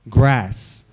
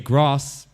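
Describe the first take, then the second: First: The vowel is a short, flat American 'a'. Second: The vowel is a long, open British 'ah'. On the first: Listeners understand the word. The speaker calls it right. "I have to rephrase it" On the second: Listeners do not understand the word. The speaker calls it wrong. "the British accent has backfired because whenever I say grass"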